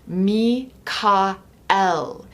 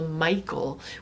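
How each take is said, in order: First: The name is said as three separate syllables. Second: The name is said as two blended syllables. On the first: An older mystery-school form of the name. "Each of those syllables having a key significance" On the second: A more modern form of the name. "a more modern pronunciation of his name"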